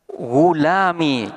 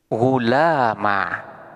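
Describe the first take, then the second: First: The word ends in a short i sound. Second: The word ends in a short a sound. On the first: "huruf iya-nya di sini dibuang" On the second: "alifnya dibuang sementara harkat fathah"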